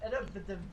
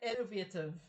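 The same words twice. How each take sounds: First: The word is said quickly and rushed. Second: The word is said slowly and carefully. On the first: The speaker calls it wrong. "I want to rush to say innovative" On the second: The speaker calls it right. "I have to sort of take my time"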